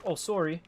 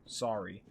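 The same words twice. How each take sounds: First: Sorry said as "sore-ee" with a rounded o, like a Canadian. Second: Sorry said as "sah-ree" with an open ah, American style. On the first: Retold or imitated. Streamer showing chat how Canadians say "sorry", rounded o. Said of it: "all the Canadians are like". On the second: Shown as a demonstration. Streamer showing chat his own American "sorry", open ah. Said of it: "I say it like real American".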